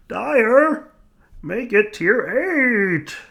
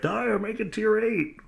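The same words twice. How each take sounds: First: Chanted, very high, drawn-out plea; chanted, whine it like eager fans; pleading fan chant. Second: High, slow chanting demand; viewers' demand voice. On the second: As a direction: call out like a fan crowd. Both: Retold or imitated. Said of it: "I can already hear it".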